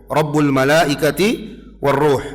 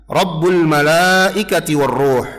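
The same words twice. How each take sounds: The two takes are said the same way.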